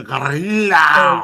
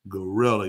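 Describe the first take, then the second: First: GORILLA loud and stretched, R rolled hard. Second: GORILLA said relaxed and low, "guh-RILL-uh"; easy English gorilla. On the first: Host mocks the Spanish roll, loud drawn-out gorilla. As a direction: exaggerate the rolled R in "ga-RRREE-la". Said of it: "See what a roll". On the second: Host shows how he can talk, relaxed English gorilla. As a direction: let GORILLA come out easily in plain English. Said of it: "I can talk like this". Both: Shown as a demonstration.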